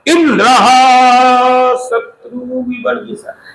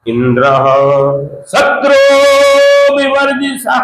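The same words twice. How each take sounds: First: The stress falls on the word Indra. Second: The stress falls on the word shatru. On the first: The speaker calls it wrong. "Indra पे जोर दे रहे हैं, शत्रु पे जोर नहीं।" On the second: The speaker calls it right. "ऐसे बोलना चाहिए था।"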